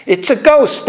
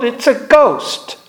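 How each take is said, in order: First: A raised, fearful cry of the disciples; retold frightened yell. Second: Slower, drawn-out echo of the fearful cry; retold frightened yell. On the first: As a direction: call it out like a scared fisherman. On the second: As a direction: stretch it out, spooked. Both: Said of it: "they yelled".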